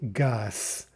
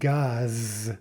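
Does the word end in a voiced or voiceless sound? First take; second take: voiceless; voiced. First: The word ends with a voiceless S sound. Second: The word ends with a voiced Z sound. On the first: "but we say gas, with the final S sound" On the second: "we write gaz"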